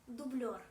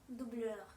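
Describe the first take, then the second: Both takes have the same delivery.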